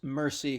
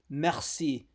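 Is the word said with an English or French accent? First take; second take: English; French. First: It is said with an English accent. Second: It is said with a French accent. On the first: The speaker calls it right. "kind of like a tacky Anglophone accent" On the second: The speaker calls it wrong. "it's not like pronounced like French"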